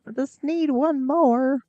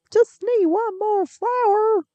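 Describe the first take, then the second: First: Said in the usual way. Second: Much higher, slower, cartoonish squeak; a silly high-pitched plea for one more flower; squeaky high put-on voice. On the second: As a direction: stretch it out in a tiny high voice. Repeating line about the last flower.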